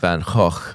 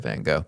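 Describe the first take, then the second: First: The name is said with a Dutch pronunciation. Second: The name is said with an English pronunciation. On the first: "I have a Dutch friend who's told me I should pronounce it Van Gogh" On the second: "So I'm just going to say Van Gogh"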